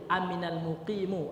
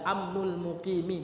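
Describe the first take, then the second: First: The first word is amina, the second ends muqimu. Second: The first word is amnu, the second ends muqimi. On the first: It is a past-tense verb with the resident as subject. "Bisa sebagai fi'il madhi" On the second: It is a possessive phrase: the safety of the resident. "Bisa juga mudhaf mudhaf ilaih"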